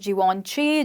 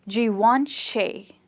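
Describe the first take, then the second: First: The last syllable sounds like 'she'. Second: The last syllable sounds like 'shay'. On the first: The speaker calls it wrong. "mostly it's pronounced as Givenchy" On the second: The speaker calls it right. "it's actually pronounced as Givenchy and not she"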